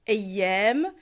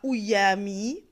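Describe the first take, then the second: First: The word begins with an 'a' vowel. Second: The word begins with a 'u' vowel. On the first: The speaker calls it right. "ça se prononce Eyyem" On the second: The speaker calls it wrong. "et non pas Ouyami"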